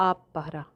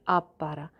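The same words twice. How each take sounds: Both takes have the same delivery.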